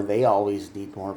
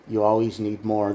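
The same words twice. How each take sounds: First: "They" hit harder to contrast with "You"; stress on THEY. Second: "You" leaned on, then "always need more" plain; stress on YOU. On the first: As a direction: punch the word "They" to point at the partner. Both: Shown as a demonstration.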